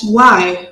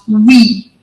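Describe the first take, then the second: First: The vowel sounds like 'eye'. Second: The vowel sounds like 'ee'. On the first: This is how it is said today. "Right now we pronounce it as Y" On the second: This is how it was said long ago. "back then they pronounce it as we"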